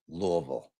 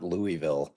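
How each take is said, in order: First: The name is said the way locals say it. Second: The name is said the way outsiders say it. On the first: This is how residents say the name. The speaker calls it right. "I pronounce it like it's supposed to be pronounced" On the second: This is how non-residents say the name. The speaker calls it wrong. "That's how people that don't live in Louisville pronounce Louisville"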